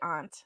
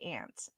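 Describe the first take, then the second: First: The word is said in a fancy way. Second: The word is said in a plain way. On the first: This is not the speaker's usual pronunciation. The speaker calls it wrong. "I don't actually say aunt. ... I guess I was trying to be fancy" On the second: This is the speaker's usual pronunciation. The speaker calls it right. "I say aunt"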